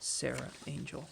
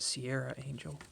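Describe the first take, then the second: First: The first word has no 'ee' glide: sair-a. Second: The first word has an extra 'ee' glide: see-air-a. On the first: The speaker calls it right. "but it's Sarah Angel. There's no I in there" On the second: The speaker calls it wrong. "For the longest time as a kid, I pronounced it"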